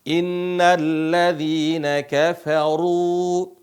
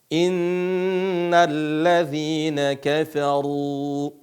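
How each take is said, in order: Both takes have the same delivery.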